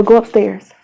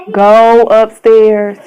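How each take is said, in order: First: Said in the usual way. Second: Stern repeated order. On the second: Real, not acted. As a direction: draw out each word so they obey. Repeats the order more forcefully.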